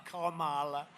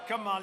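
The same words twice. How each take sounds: First: Kamala said as KAH-mah-lah, opening like "comma"; mock pronunciation. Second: Said in the usual way. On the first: Shown as a demonstration. Speaker to crowd, teasing how Kamala is said. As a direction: say Kamala with a broad "comma" start. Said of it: "like a comma". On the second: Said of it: "You have to pronounce her name right".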